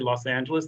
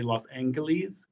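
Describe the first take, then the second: First: The G in Angeles is soft. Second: The G in Angeles is hard. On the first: This is the usual modern way. "don't say Los Angeles" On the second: This is how upper-class old timers said it. "They'll harden that G"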